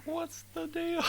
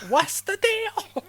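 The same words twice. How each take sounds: First: Very high comic squeak; squeaky voice. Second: Very high, slow, loud squeak; squeaky voice. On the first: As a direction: squeak it out for a laugh. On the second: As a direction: stretch it in a squeal. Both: Pretend.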